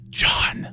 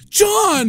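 First: The name is said in an aggressive whisper. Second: The name is shouted loudly.

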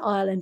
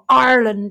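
First: Ireland is pronounced the usual English way. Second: Ireland is pronounced the Irish way. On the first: This is the family's usual way of saying it. The speaker calls it wrong. "because we don't pronounce it correctly" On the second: This is the way a child learned it from an Irish teacher. The speaker calls it right. "as he calls it"

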